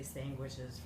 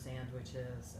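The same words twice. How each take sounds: First: The word has an Italian-style pronunciation. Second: The word has a standard American pronunciation. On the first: This is how older Italian immigrants said it. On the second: This is the usual way to say it.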